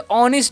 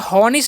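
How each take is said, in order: First: The word begins directly with a vowel sound. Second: The word begins with an audible h sound. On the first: The speaker calls it right. "Be ऑनेस्ट पढ़ते हैं। यहाँ पर एच silent होता है" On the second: The speaker calls it wrong. "हॉनेस्ट नहीं पढ़िएगा"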